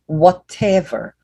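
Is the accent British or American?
British. It is said with a British accent.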